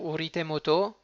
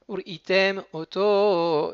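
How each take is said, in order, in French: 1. Les deux mots sont enchaînés, sans pause. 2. Une courte pause sépare les deux mots. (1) "pour pas dire uritem auto, moto" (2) "il faut faire une interruption entre le uritem et le auto"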